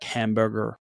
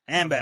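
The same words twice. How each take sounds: First: It is said in an American accent. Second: It is said in an Australian accent. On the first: "you guys really like pronounce the vowels. Like for example, like the R" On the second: "we're like"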